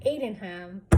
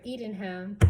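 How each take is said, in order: First: "eaten" said as "AY-tin"; slip of the tongue. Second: Said in the usual way. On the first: Real, not acted. Recruit telling the ham story, "eaten" slipped into "ate-en". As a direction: open "eaten" with the vowel of "ate". Slip in the word, then corrected.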